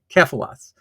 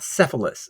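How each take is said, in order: First: The name begins with a k sound. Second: The name begins with an s sound. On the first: The speaker calls it right. "it's Kephalos" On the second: The speaker calls it wrong. "So it's not Cephalus"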